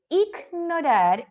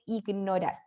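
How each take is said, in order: First: One sound in the word is exaggerated. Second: Every sound in the word is plain. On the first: The speaker calls it wrong. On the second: The speaker calls it right.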